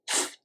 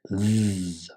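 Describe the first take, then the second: First: The th sound is voiceless, without vibration. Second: The th sound is voiced, with vibration. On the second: "Voiced meaning your voice box vibrates when you say it"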